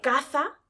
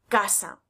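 First: The z is pronounced as a th sound. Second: The z is pronounced as an s sound.

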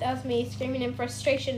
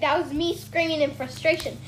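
First: It is said quietly. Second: It is said loudly.

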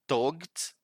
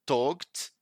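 Both takes have the same delivery.

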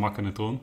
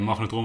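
First: The middle consonant is a hard k sound. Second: The middle consonant is a g-like sound. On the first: The speaker calls it wrong. "Dat heeft ook echt lang geduurd voordat ik dat goed kon uitspreken" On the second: The speaker calls it right. "En magnetron was een makkenetron"

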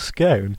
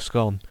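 First: The word is said the posher way. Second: The word is said the everyday casual way. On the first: The company is upper-class. "If I'm with a posher group of people, I just revert to scone" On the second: The company is friends or family. "if I'm just with like my friends or just general people or family, then I'll just go scone"

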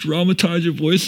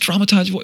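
First: The voice sounds sad. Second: The voice sounds happy. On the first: "And then it'd be like sad" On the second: "Or happy"

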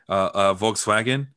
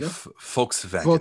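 First: The word starts with a V sound. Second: The word starts with an F sound. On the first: The speaker calls it wrong. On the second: The speaker calls it right.

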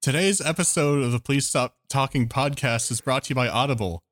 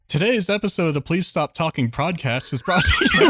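First: It is read in his normal speaking voice. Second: It is read in a put-on advertising voice.

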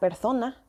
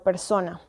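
First: The s is pronounced like a th sound. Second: The s is pronounced as a plain s sound. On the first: "un hablante ceceante dirá" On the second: "y no"

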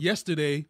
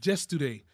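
First: The word begins with a Y sound. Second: The word begins with a J sound. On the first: "instead of saying" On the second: "they say yesterday"

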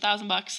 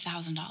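First: It is said firmly and confidently. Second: It is said hesitantly and unsure. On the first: The speaker stands behind the price. The speaker calls it right. "the energy is so different" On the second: The speaker doubts the price is worth it. The speaker calls it wrong. "said it with that hesitation"

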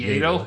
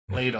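First: The name begins with a Y sound. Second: The name begins with an L sound.

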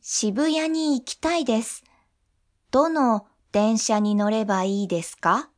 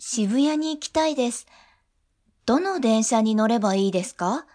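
First: It is said slowly. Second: It is said at normal speed.

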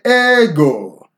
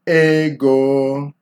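First: The first syllable is high, the second low. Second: The word is pitched in the middle range. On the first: The speaker calls it wrong. "that would be high, low" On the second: The speaker calls it right. "You want to strike it in the middle"

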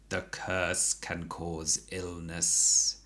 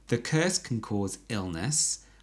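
First: It is said in a slow, dramatic character voice. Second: It is said in an ordinary natural voice.

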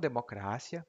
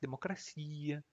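First: The stress is on the syllable cra. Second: The stress is on the syllable ci. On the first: The speaker calls it wrong. "não democracia" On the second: The speaker calls it right. "mas democracia"

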